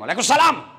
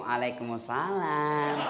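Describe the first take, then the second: First: It is said firmly, short and flat. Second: It is said softly, with a lilting, drawn-out tune.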